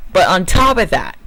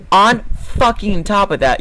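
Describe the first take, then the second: First: Said in the usual way. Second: "on fucking top of that" slowed down, with each word hit hard; slow angry emphasis. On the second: Real, not acted. Ranting at the driver, slowing down to stress every word. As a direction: drag out "fucking top" to hammer the point.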